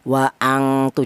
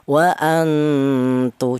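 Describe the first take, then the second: First: The n becomes a full ng sound. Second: The n is softly hidden with light nasal sound. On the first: The speaker calls it wrong. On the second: The speaker calls it right. "samarnya lebih dominan daripada dengungnya"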